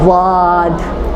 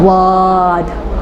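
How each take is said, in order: First: The mouth stays open with a clear a vowel. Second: The mouth stays open with a clear a vowel.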